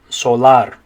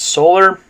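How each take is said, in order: First: It is said with Spanish vowels, A as ah. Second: It is said with English vowel sounds. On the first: "in Spanish the A makes an ah sound" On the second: "in English it's solar"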